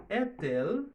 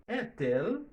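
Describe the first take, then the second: The two takes are said the same way.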